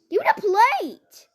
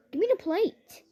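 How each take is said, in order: First: High, loud royal order; escalated queenly demand; louder bossy demand. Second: Higher, demanding queen; raised bossy request. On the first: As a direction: insist harder, shouting for the plate. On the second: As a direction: ask for the plate like royalty. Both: Retold or imitated.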